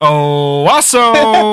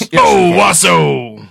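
First: It is said without anger. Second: It is said angrily.

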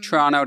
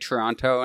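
First: The second t is dropped. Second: The second t is clearly pronounced. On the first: This is how Canadians say it. "it's just Toronto to Canadians" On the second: This is how many Americans say it. "a lot of Americans say Toronto"

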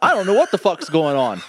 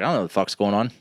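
First: It is said in a put-on British accent. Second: It is said in a plain American accent. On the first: "I went a little Mary Poppins with it" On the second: "But you got to say it with an accent"

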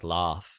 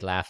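First: It has a long, open British 'ah' vowel. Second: It has a short, flat American vowel.

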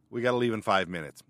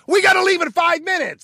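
First: The voice is calm and at normal loudness. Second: The voice is raised and louder than normal. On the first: A first, plain reminder. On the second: The speaker is losing patience after repeating it.

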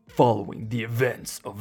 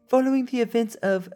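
First: It uses a deep, dramatic movie-trailer narrator voice. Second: It uses a relaxed, easygoing put-on character voice. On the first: The speaker calls it wrong. "Let me do it like super extra because it's like a freaking Marvel movie breakdown" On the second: The speaker calls it right. "I'm gonna do this in a Korg voice"

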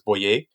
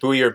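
First: The name is given a non-English pronunciation. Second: The name is given an English pronunciation. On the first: This is the name's original form. "but the name is Bouyer" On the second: This is how the family says it today. "they pronounce it Bouyer, but in English today"

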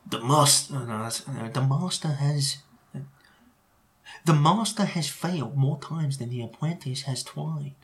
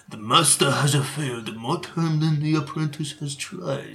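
First: It is spoken in a put-on Chinese accent. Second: It is spoken in a put-on Japanese accent. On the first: "Can I say that in a Chinese accent?" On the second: "Maybe it would be better in Japanese accent"

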